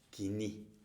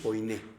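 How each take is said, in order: First: The first syllable is said as 'ki'. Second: The first syllable is said as 'koi'. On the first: The speaker calls it right. "pero realmente se pronuncia kiní" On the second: The speaker calls it wrong. "muchos dicen koiné"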